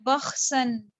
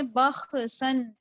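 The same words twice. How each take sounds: First: बख्सन with the KH held, no vowel before S. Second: बख्सन with an echo vowel after KH; wrongly bounced KH. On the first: Teacher modelling the held reading, बख्सन with a steady KH. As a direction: hold the rasp of KH, then go into S in बख्सन. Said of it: "जमाओं के साथ पढ़ना है". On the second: Teacher showing how not to read, बख्सन with a bounced KH. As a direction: break बख्सन into bakh-uh-san. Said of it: "ऐसे नहीं पढ़ना". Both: Shown as a demonstration.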